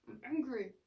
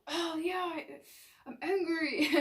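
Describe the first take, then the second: First: Just name the feeling and let it be; a calm, accepting self-talk voice; calm acknowledgment. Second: Higher, louder, amused admission; a light, laughing discovery; cheerful realization. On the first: Shown as a demonstration. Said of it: "Just feel angry for a second". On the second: Retold or imitated. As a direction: happily own up to the anger. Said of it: "You're gonna go".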